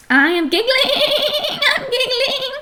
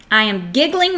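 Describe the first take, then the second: First: High-pitched, quivering mock giggle through the words; acted giggling. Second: Said in the usual way. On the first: Shown as a demonstration. Teacher showing that -ing means now, pretend giggling in high voice. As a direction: put on a squeaky, tittering giggle as you speak. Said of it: "All right, so it's happening now". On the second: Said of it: "so it's happening now".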